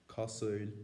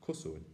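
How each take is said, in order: First: Cosúil in the Ulster way, three syllables; Ulster pronunciation. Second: Cosúil in the Connacht way, two syllables; Connacht pronunciation. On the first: Teacher demonstrating the Ulster way of saying it. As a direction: say Cosúil as an Ulster speaker would. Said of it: "an Ulster pronunciation like". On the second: Teacher contrasting it with the Connacht way of saying it. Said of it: "Connacht and Munster pronunciation like". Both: Shown as a demonstration.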